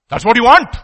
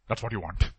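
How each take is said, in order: First: Loud accusation. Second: Soft repeat. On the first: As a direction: punch out "That's what you want" loud and rising on want. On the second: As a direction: drop "That's what you want" low and soft, falling on "That's". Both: Real, not acted. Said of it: "repeated loud then soft".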